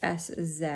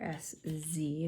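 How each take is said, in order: First: The last letter is said zed, non-American style. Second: The last letter is said zee, American style.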